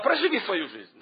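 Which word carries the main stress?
проживи. The stress falls on the word проживи. Just get through your life. The speaker calls it wrong. "Не читайте эту тему так"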